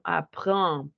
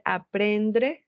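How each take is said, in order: First: Apprendre con vocal nasal y R francesa; correct French pronunciation. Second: Aprendre dicho a la española, con e y r simple; wrong Spanish version. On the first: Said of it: "sino apprendre". (apprendre con R uvular y nasal) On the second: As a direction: di aprendre como en español, incorrecto. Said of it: "No vamos a decir aprendre". (pronunciación española errónea de aprendre) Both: Shown as a demonstration.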